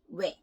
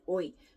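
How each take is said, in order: First: The syllable sounds like 'we', one quick glide. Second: The syllable sounds like 'oi', two separate vowels. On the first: The speaker calls it right. "It's we" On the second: The speaker calls it wrong. "it's not pronounced as oi"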